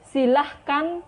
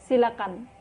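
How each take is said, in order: First: An h sound is heard in the middle. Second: No h sound is heard in the middle. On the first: The speaker calls it wrong. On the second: The speaker calls it right.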